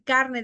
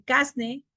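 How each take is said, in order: First: Said in the usual way. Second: "carne" said as "casne". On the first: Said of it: "En vez de decir carne". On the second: Shown as a demonstration. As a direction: swap r for s, "casne". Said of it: "R por S".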